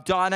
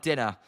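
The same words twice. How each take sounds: First: "diner" said with a long I, DYE-ner; correct pronunciation. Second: "dinner" said with a short I, DIN-ner; the short-vowel "dinner", DIN-ner, as the mistake; wrong pronunciation. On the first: Streamer corrects himself for chat, saying "diner" as DYE-ner. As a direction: stress the first syllable of "diner" with a long vowel, DYE-ner. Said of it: "diner is how it's said". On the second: Streamer shows chat his earlier slip, saying "dinner" as DIN-ner. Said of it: "not dinner". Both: Shown as a demonstration.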